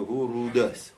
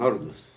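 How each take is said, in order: First: The name is said with three syllables. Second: The name is said with two syllables. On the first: This is the traditional pronunciation. The speaker calls it right. "המסורת שלנו, הורודוס" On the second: This is the common pronunciation. The speaker calls it wrong. "זה אומרים הורדוס"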